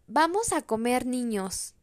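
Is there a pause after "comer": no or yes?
no. It is said without a pause after comer.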